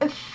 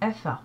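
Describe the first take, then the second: First: The f sound is doubled and held longer. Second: The f sound is short and single. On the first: "vous avez une shadda, vous devez doubler la lettre fa" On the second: "vous n'avez pas la shadda, vous n'insistez pas sur la lettre fa"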